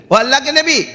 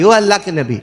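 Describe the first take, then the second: First: Raised, high-pitched hail; calling out. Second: Restrained first call to someone ahead. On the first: Passenger hailing the prophet from behind, urgent high call. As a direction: call after someone walking away, pitched high. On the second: Passenger hailing the prophet from behind, mild call. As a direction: call out, close to your usual pitch. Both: Acted. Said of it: "تو اس نے آواز دی".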